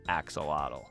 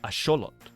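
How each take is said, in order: First: It is said with the common English pronunciation. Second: It is said with the original Aztec pronunciation. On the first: The speaker calls it wrong. "the pronunciation that most of us know as axolotl" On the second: The speaker calls it right. "the correct way to pronounce it is axolotl"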